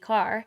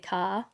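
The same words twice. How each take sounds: First: The final R is clearly pronounced at the end. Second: The final R is dropped, with no R sound. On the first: This is how it is said in a US accent. "so it would be car" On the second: This is how Australians say it. "we you know we say car"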